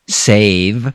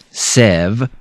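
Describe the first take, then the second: First: The vowel is a long A sound. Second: The vowel is a short E sound. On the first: The speaker calls it right. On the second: The speaker calls it wrong.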